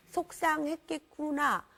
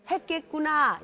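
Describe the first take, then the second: First: Slow, drawn-out sympathy; slow empathic reflection. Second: Louder drawn sympathy, said for repeating; audience echo line. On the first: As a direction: let the feeling sink in slowly. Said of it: "한번 해보세요". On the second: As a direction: say it loud so they repeat. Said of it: "또 뭐라요?". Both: Shown as a demonstration.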